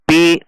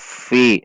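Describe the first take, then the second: First: The word begins with a p sound. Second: The word begins with an f sound. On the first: The speaker calls it wrong. "Bukan dibaca pi" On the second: The speaker calls it right. "namun dibaca fi"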